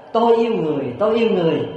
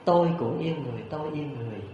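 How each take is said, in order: First: High, lifted call into the forest; retold boy's raised-voice call; calling out loudly. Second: Soft, fading forest echo; hushed imitation of an echo; echoing back. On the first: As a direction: cry it out for the woods to hear. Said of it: "la lớn lên rằng". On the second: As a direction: let the reply drift back and die away. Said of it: "cũng vang vọng là những tiếng".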